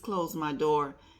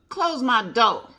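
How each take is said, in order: First: It is said in a polished standard accent. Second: It is said with a Southern drawl. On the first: She is speaking properly and politely. "But then she also knew" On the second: She is speaking casually at home. "she had an accent, a southern accent, drawl"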